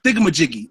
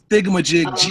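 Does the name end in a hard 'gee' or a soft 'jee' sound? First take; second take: hard gee; soft jee. First: The name ends in a hard 'giggy' sound. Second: The name ends in a separate soft 'jee' sound. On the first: The speaker calls it wrong. "It's not thingamajiggy" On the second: The speaker calls it right. "It's thingamajig G, like G E E"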